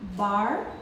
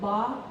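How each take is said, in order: First: It is said with an American R. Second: It is said without the R, British style. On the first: "in the American English we say bar" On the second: "in the British accent they say ba"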